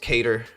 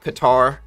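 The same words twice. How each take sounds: First: The name is said in a plain, ordinary way. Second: The name is said in a fancy-sounding way. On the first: "other times it's Qatar" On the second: "I kind of feel like fancy"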